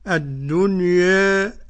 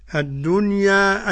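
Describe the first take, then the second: First: The final vowel is raised slightly toward e. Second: The final vowel is a fully open a. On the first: "الدنيا أدي قراءة مين؟ ورش وأبي عمرو" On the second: "الدنيا أدي الفتح"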